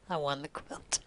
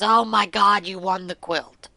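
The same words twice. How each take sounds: First: Quiet echo. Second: Louder, thrilled oh my God; husband shouting the news; excited exclamation. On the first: Real, not acted. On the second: Retold or imitated. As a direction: blurt it out in delight. Husband reacts to the phone call.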